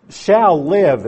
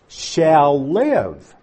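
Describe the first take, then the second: First: Loud, punched "Shall live", pitch up; stress on shall live. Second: "shall live" set apart and stressed; single out "shall live" with firm weight. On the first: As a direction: belt out "Shall live" as the key phrase. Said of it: "is the emphasis here". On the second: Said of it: "is what's emphasized". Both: Shown as a demonstration.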